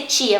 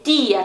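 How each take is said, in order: First: "tia" as chia, Portuguese style; Brazilian ch. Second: "tia" with a clean dental t; Spanish "tia"; soft Spanish t. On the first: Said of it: "não vai ser tia". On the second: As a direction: say "tia" as tee-ah, no ch. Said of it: "também é bem suave". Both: Shown as a demonstration.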